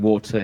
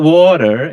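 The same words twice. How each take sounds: First: It is said with a British pronunciation. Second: It is said with an American pronunciation. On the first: The speaker calls it right. "I have to say water here" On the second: The speaker calls it wrong. "Not water, not water, because I think they're not big fan of Americans here"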